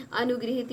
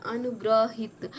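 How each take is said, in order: First: अनुगृहित with "gri" in the middle; corrected form. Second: अनुग्रहित slow, with "gra" in the middle; wrong form. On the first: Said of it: "गृहित रहेगा". (अनुगृहित में "गृ" बोलें) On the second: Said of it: "ये ग्रह नहीं रहेगा". (अनुग्रहित में "ग्र" बोलें) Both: Shown as a demonstration.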